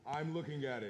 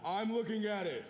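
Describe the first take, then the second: First: It is said louder. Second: It is said very loudly.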